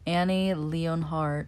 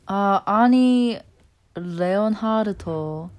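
First: The name is said with an English accent. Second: The name is said with a non-English accent.

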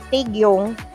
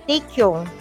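First: The middle consonant is a voiced G sound. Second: The middle consonant sounds like a K without air. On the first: "if you're so going to say Taegyeong" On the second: "you say Taekyong"

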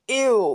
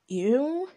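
First: It sounds strongly disgusted, like retching. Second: It sounds mildly disgusted.

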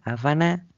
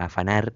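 First: The final r sound is dropped entirely. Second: The final r sound is clearly pronounced. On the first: This is how people say it locally. "es choreá, afaná y nada más" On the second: This is not how people say it locally. "La R que se la use Magoya acá"

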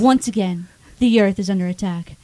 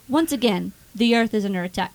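First: It is read in a dramatic movie-trailer voice. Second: It is read in a plain, ordinary voice.

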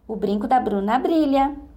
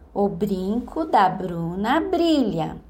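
First: The phrase is said at its fastest. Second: The phrase is said very slowly. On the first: "E agora?" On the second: "Primeiro, bem devagar"

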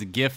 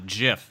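First: The word starts with a hard G sound. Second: The word starts with a J sound. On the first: The speaker calls it right. "that's why it's GIF" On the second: The speaker calls it wrong. "who pronounce it like peanut butter"

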